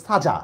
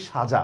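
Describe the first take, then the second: First: সাজা with a plain hissed "s"; spelling pronunciation. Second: সাজা with a hushing "sh"; actual pronunciation. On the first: Teacher shows what spelling would demand, সাজা as "saja". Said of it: "হিসাবে উচ্চারণ করা দরকার ছিল". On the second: Teacher shows what is really said, সাজা as "shaja". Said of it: "কিন্তু বলতেছি আমি". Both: Shown as a demonstration.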